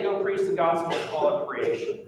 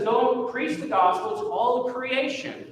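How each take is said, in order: First: Said in the usual way. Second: Pitched high, with "Go" and "all" lifted and stressed; "Go preach the gospel to all of creation" with "all" underlined; emphatic quote. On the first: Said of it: "Why does he say". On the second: Shown as a demonstration. Preacher quoting Jesus to the church, "all" emphasized. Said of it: "he's being emphatic".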